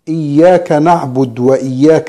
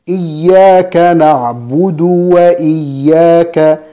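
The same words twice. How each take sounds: First: The d of na'bud has no vowel after it. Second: The d of na'bud is followed by a rounded u. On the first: The speaker calls it wrong. "بعض الناس يسكن الدال عند الوصل" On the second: The speaker calls it right. "الصحيح أن الدال مضمومة عند الوصل"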